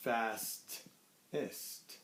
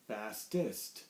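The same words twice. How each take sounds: First: "fastest" slowly and softer, fast... est, with a gap; ending split off. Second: Said in the usual way. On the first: Shown as a demonstration. Teacher shows the E S T ending, "fastest" broken in two. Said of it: "we're gonna use this E S T". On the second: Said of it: "and it's gonna become".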